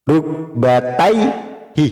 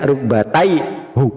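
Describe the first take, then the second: First: The word ends with an 'ee' vowel. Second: The word ends with an 'oo' vowel. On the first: The speaker calls it right. "Rukbataihi tidak rukbataihu" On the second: The speaker calls it wrong. "tidak rukbataihu"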